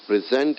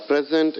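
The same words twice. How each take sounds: First: "present" as a verb, pre-SENT; weight on the last syllable of "present"; second-syllable stress. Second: "present" as a gift, PRE-sent; first-syllable stress. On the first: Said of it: "gift it to someone". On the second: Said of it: "the gift". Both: Shown as a demonstration.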